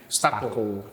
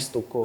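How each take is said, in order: First: The vowel after 'St' sounds like 'a'. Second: The vowel after 'St' sounds like 'u'. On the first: This is how the owner wanted it said. "gue pengennya orang bilangnya Stako" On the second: This is how people read the spelling. "pelafalannya sesuai yang dia lihat"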